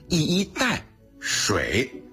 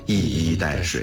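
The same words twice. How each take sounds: First: It has a break just before 水. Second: It has no break just before 水.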